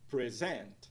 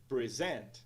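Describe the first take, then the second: No difference in how they are said.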